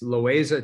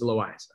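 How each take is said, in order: First: The name has an Americanized pronunciation. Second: The name has its original pronunciation. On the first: The speaker calls it wrong. "Americans call it, it's Loayza to them" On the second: The speaker calls it right. "but it is Loayza"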